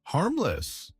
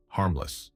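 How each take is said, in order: First: High-pitched, incredulous echo with a falling end; narrated yell of disbelief; indignant mock yell. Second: Said in the usual way. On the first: A narrator's reading. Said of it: "he yells". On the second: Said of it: "trying to sound professional".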